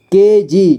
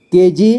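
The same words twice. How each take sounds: First: केजी split as के, जी; syllable by syllable. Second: Said in the usual way. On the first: Shown as a demonstration. Teacher showing learners केजी, sounded out in parts. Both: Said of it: "इसे पढ़ेंगे".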